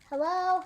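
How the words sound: The voice calls out loudly to someone. The person is searching for someone. "calling out"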